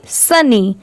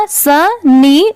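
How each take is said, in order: First: Said in the usual way. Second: सनी stretched very slowly, syllables drawn out; slow blended demo. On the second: Shown as a demonstration. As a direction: draw out सनी slowly so learners hear both parts. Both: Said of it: "पूरा क्या हो जाएगा?".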